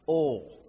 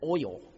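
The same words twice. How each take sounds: First: The word is said as one syllable. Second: The word is said as two syllables. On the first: "I have always pronounced it oil. One syllable" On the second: "Sarah says it's oil"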